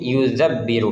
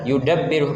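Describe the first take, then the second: First: The consonant after 'yu' is a soft 'dh' sound. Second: The consonant after 'yu' is a plain 'd' sound. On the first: The speaker calls it wrong. "tertulis di sini yuzabbiru menggunakan dzal" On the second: The speaker calls it right. "yang benar seharusnya adalah yudabbiru menggunakan dal"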